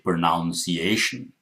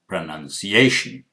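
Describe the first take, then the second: First: The second syllable sounds like 'noun'. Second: The second syllable sounds like 'nun'. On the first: The speaker calls it wrong. "I did not say pronunciation" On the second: The speaker calls it right. "I said pronunciation. None"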